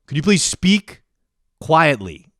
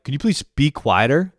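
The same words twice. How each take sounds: First: Higher, louder, insistent repeated request; full Karen. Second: Pointed mock-polite request; full Karen. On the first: Retold or imitated. Karen repeating herself to the noisy passenger, exasperated. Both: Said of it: "I go full Karen".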